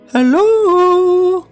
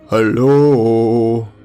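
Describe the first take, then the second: First: It is said in a high falsetto. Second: It is said in a deep baritone.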